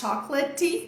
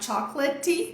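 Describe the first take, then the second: First: It is said with Portuguese sounds and syllables. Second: It is said with Portuguese sounds and syllables.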